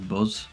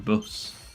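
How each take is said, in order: First: The word ends with a z sound. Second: The word ends with an s sound. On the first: The speaker calls it wrong. "I'm pretty sure that I say buzz sometimes" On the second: The speaker calls it right. "it should be bus"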